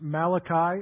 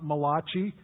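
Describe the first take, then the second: First: The name is said without an Italian-sounding ending. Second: The name is said with an Italian-sounding ending. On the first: The speaker calls it right. "It is Malachi" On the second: The speaker calls it wrong. "It is not Malachi. He was from Israel, not Italy"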